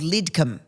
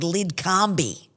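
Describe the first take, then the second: First: The name is said the Australian way. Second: The name is said the American way. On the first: This is how locals say the place name. The speaker calls it right. "there's a suburb called Lidcombe" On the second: A newcomer got the place name muddled. The speaker calls it wrong. "Rob says a pronunciation incorrectly"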